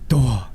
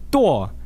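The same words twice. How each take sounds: First: It has a low tone with breathy aspiration. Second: It has a tone that is not low and breathy. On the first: To die. "that's like a low aspirated" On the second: To come. "that means to come"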